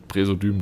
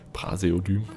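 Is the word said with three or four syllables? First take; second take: three; four. First: The word is said with three syllables. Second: The word is said with four syllables. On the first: The speaker calls it wrong. "Ich sage immer Präsodym, ich weiß nicht warum" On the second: The speaker calls it right. "das nehmen wir dann Praseodym"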